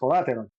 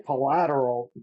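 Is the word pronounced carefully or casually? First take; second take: casually; carefully. First: The word is pronounced casually, with syllables reduced. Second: The word is pronounced carefully, every syllable clear. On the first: "naturally ... normally and without thinking about it, then it's going to come out as collateral" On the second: "I can say collateral"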